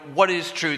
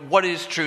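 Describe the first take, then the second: First: It sounds cynical and angry. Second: It sounds cynical and angry.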